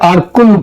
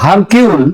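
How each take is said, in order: First: It starts with a vowel, ending like 'kool'. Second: It starts with an H sound, ending like 'kyool'. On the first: The speaker calls it right. "Actually উচ্চারণটা হচ্ছে আরকুল" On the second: The speaker calls it wrong. "ওই চারু উচ্চারণে এটা হয় হারকিউল"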